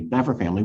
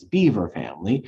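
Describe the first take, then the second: First: The name is not said like beaver. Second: The name is said like the word beaver. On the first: This is the family's own way of saying it. The speaker calls it right. "the Norris family has corrected us, it's actually Bever family" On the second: This is the local way of saying it. The speaker calls it wrong. "which in Cedar Rapids we pronounce as Beaver family"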